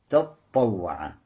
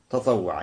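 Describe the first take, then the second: First: The t sound is doubled and held long. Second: The t sound is single and short. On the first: "удваивать то и говорить таттава" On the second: "Не удваивая «та». Тоже можно"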